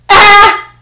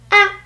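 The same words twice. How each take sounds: First: The sound starts crisply with heavy force. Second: The sound starts crisply with light effort. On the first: The speaker calls it wrong. "It doesn't mean ah. It doesn't mean go harder" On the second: The speaker calls it right. "Staccato simply means that there's almost no time between when there's no sound and then all of a sudden when there's sound"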